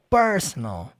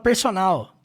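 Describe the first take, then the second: First: The stress is on the first syllable. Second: The stress is not on the first syllable. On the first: The speaker calls it right. "a ênfase tá no per" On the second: The speaker calls it wrong. "você não fala personal"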